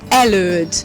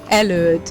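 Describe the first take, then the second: No difference in how they are said.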